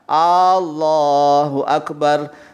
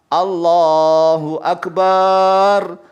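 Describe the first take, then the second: First: The first vowel of Allah is lengthened. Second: The vowel of bar in akbar is lengthened. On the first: "barnya sudah benar pendek, tetapi kalau a-nya salah panjang" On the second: "Allahnya sudah benar, tapi barnya yang salah"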